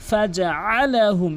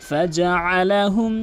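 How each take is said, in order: The two takes are said the same way.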